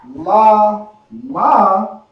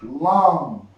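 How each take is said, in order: First: It is said as two separate syllables. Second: It is said as one joined syllable. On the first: The two characters are read independently. "instead of it being La Ma" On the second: The two characters are connected into one word. "it becomes Lam"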